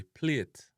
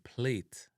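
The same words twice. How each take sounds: First: PLATE as "plyet"; Jamaican pronunciation. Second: PLATE with a long A, "playt"; English-style "playt"; English pronunciation. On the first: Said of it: "a Jamaican". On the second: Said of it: "in a English". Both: Shown as a demonstration.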